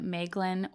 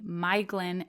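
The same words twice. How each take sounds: First: The first syllable does not sound like 'my'. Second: The first syllable sounds like 'my'. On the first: The speaker calls it wrong. "as I had been pronouncing" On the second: The speaker calls it right. "is actually pronounced my"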